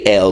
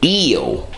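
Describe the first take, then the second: First: The vowel is short, like 'el'. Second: The vowel is long, like 'eel'. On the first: "they don't say El" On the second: This is how the Moors say the name. "they say Eel"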